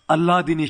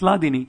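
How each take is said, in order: First: The word begins with an added vowel sound. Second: The word begins directly with an L sound. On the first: The speaker calls it wrong. "a lot of times devotees uh, pronounce it as Alladini Shakti" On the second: The speaker calls it right. "It's Ladini"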